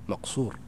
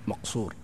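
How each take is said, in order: Both takes have the same delivery.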